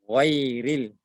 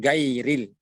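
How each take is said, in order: First: "Ghairil" starting thick, almost "ghoiril"; thick ghain. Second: "gairil" with hard g and open ai; thin g. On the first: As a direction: begin "Ghairil" heavy from the throat. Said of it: "dibaca gha dan bukan ga". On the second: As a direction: begin "gairil" with a light g. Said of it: "Bukan gairil". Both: Shown as a demonstration.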